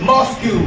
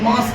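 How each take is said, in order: First: The word ends with an added 'kyoo' sound. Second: The word ends cleanly with an 'sk' sound. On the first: The speaker calls it wrong. "But we pronounce this wrong" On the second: The speaker calls it right. "मॉस्क्यू नहीं है, ये मास्क है"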